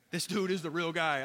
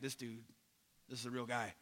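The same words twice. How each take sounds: First: Said in the usual way. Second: Low, very soft retold realization; hushed aside. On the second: Pilate on hearing Jesus answer, hushed aside. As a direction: drop right down to a quiet, understated remark. Pilate's awed reaction, jokingly paraphrased.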